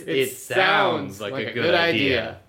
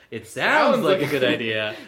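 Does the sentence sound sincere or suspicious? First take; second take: sincere; suspicious. First: The emphasis makes it sound sincere and positive. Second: The emphasis makes it sound doubtful and suspicious. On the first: The idea really is good. The speaker calls it right. "Yours is" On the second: The idea only seems good and may not be. The speaker calls it wrong. "my way sounds suspicious"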